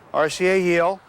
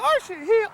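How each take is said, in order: First: It is said in a plain, neutral voice. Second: It is said in an effusive, loving voice.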